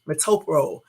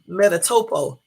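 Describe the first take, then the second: First: The name is said as metopro. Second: The name is said as metatopo. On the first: The speaker calls it right. "the damn medicine is pronounced Metopro" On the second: The speaker calls it wrong. "I'm up here calling this other medicine um"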